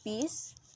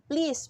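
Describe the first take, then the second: First: Only the first consonant of the cluster remains. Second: The full consonant cluster is pronounced.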